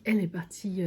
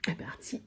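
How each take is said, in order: First: Said in the usual way. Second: Breathy whisper, no voice; whispered aside. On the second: Real, not acted. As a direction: drop to a whisper on the first try. Restarts the phrase in a whisper.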